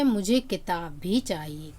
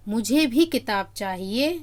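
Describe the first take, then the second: First: Weight moves to किताब भी; the book as well; teacher shifting the stress to किताब. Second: भी right after मुझे, weight on me; me too, I want one; teacher showing the stress on मुझे. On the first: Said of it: "यहाँ किताब पर बल दिया जा रहा है". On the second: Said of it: "तो मुझ पर बल दिया जा रहा है". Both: Shown as a demonstration.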